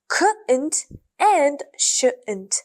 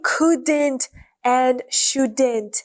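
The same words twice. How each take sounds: First: The D sound is left out. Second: The D sound is clearly pronounced. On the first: "They remove the D and pronounce them like" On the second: "they don't say couldn't and shouldn't"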